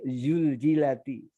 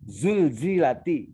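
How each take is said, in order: First: The z sound drifts toward a different sound. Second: The z sound is a clear buzzing z. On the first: The speaker calls it wrong. "Tiap baca za itu mendekati y" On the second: The speaker calls it right. "Karena makhrajnya gigi tertutup"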